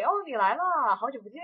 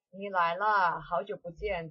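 First: 你来了 much higher and louder, bouncing with joy; happy greeting. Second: Peaceful. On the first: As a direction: greet a friend you're thrilled to see. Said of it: "So you're very happy". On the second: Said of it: "That's just really peaceful". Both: Shown as a demonstration.

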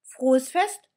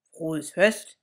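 First: High, loud, happy "Frohes Fest"; the doll calls her wish across the street; bright high shout of "Frohes Fest"; calling out. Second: Lightly voiced teddy bear; bear's wish. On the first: Acted. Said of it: "ruft Annabella". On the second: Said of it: "sagt Ladislaus".

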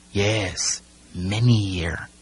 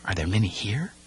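First: MANY HERE as a falling statement; grave confirmation. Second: Soft question, rising on HERE. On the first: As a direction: answer firmly, letting MANY HERE fall. Timothy answers the boy's question. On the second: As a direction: ask it softly, lifting MANY HERE. Boy asks about the sharks. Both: A narrator's reading.

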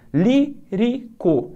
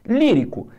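First: Lírico drawn out slowly, leaning on the first syllable Lí; slow syllable stress. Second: Said in the usual way. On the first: Shown as a demonstration. Teacher sounding out the stressed syllable for students, slowly. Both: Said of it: "o acento tá aqui".

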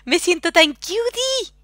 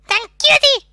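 First: Cutesy voice. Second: Loud high cutesy squeal. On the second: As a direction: squeal the word cutie. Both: Pretend. Cutesy voice about fanart.

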